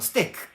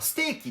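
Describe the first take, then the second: First: The word ends with a clipped k sound. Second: The word ends with a clear ee vowel. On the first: This is closer to the English way of saying it. "英語だとステークみたいな" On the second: This is the Japanese way of saying it. "日本では例えばステーキって言うけど"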